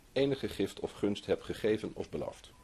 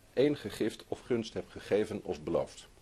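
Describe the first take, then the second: No difference in how they are said.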